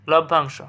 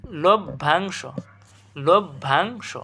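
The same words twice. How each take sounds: First: Said in the usual way. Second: লভ্যাংশ slow as "lob... bhang-sho"; syllable by syllable. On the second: Shown as a demonstration. Teacher checking students understand, slow syllable demonstration. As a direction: break লভ্যাংশ after "lob", each part drawn out. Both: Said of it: "বুঝছো কথাটা?".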